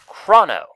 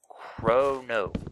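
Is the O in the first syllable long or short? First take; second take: short; long. First: The first O is a short vowel. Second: The first O is a long vowel. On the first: The speaker calls it wrong. "which is a common mispronunciation of my name" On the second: The speaker calls it right. "Long O"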